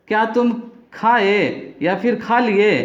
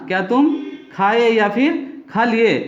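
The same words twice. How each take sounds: First: Slow model question. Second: Said in the usual way. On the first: Shown as a demonstration. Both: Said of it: "question कैसे करना है देखिए".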